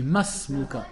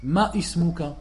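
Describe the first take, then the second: First: Masmuka as one linked word; correct liaison. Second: Ma ismuka with a stop before ismuka; wrong glottal stop. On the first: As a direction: run masmuka smoothly together. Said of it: "On dit". (masmuka lié sans hamza) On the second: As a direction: break ma ismuka apart with a hamza. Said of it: "ils font l'erreur". (ma ismuka prononcé avec hamza fautive) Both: Shown as a demonstration.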